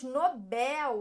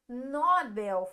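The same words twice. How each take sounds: First: The stress is on the second syllable. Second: The stress is on the first syllable. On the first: The speaker calls it right. "falamos Nobel. Aqui nós temos a última sílaba mais forte" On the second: The speaker calls it wrong. "Não falamos Nobel"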